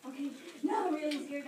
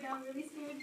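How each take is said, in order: First: Louder frightened cry of now I'm really scared. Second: Fading fear. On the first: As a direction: push the fear out on now. Girl's fear grows. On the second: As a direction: let now I'm really scared sink away. Repeat, dropping away. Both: Retold or imitated.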